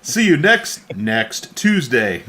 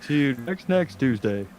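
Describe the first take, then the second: First: Robotic voice. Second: Stiff text-to-speech robot voice; robotic voice. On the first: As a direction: mimic a text-to-speech robot. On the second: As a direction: say it like a robot TTS. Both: Retold or imitated. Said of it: "Super robotic voice".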